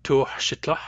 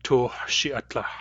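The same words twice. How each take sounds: First: "Tuhshitlah" in three syllables, tuh-shit-lah; "Tuhshitlah", tl straight after short shi; possible shorter form. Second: "Tuhshiatlah" with an added a after shi; slow "Tuhshiatlah", separate a before tlah; usual fuller form. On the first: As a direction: say "Tuhshitlah" with no vowel between shi and tl. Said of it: "So I can say". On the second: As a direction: say "Tuhshiatlah" slowly, tuh-shi-at-lah. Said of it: "usually people would say". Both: Shown as a demonstration.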